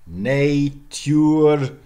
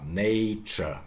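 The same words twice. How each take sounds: First: "Natur" as NAY-tyoor; loud, drawn-out "Natur" with y-glide; vowel-shifted pronunciation. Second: "nature" as NAY-chuh; everyday "nature"; modern pronunciation. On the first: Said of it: "went into the great vowel shift". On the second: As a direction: merge t and y of "nature" into ch. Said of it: "accent shift". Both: Shown as a demonstration.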